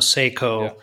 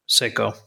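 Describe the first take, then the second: First: It is said like 'say-ko', anglicized. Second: It is said with a Japanese pronunciation. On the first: "We pronounced it sort of like S-A-Y-K-O" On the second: "when I went to Japan, I heard Seiko"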